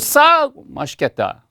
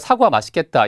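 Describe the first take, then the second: First: The first syllable is said with strong stress. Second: The syllables are said evenly without strong stress. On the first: Something is cheap and tasty. The speaker calls it wrong. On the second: The apple looks tasty. The speaker calls it right.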